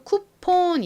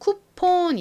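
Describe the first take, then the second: First: The second vowel is a Korean o sound. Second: The second vowel is a Korean o sound.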